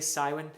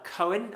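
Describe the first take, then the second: First: The name is said with an English pronunciation. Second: The name is said with a Welsh pronunciation. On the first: "Some people might say Cywin, uh, which is perfectly fine" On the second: "I'm giving it the Welsh pronunciation"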